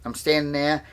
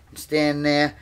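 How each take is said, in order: Both takes have the same delivery.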